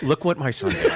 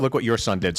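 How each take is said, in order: First: A proud, laughing "Look what MY son did"; beaming, claiming the kid, stress on "my"; proud parent quote. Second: A dry, softer "Look what YOUR son did"; blaming parent quote. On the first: Wife bragging about her son's good grades, proud and laughing. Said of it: "it's like". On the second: Wife handing the blame for the prank to her husband, dry. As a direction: pass the blame, stress on "your". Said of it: "But when he does this". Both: Retold or imitated.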